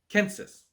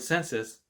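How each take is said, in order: First: The word begins with a K sound. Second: The word begins with an S sound. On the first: This is how ancient Romans said it. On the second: This is the modern pronunciation.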